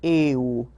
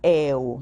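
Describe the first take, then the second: First: The first vowel is closed. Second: The first vowel is open. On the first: The speaker calls it right. "o E fechado" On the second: The speaker calls it wrong. "Eu não digo eu"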